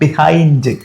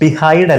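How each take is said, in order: First: The word ends with an n sound. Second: The word ends without an n sound. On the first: The speaker calls it right. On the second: The speaker calls it wrong. "ബിഹൈഡ് അല്ല"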